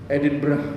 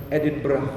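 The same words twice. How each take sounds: The two takes are said the same way.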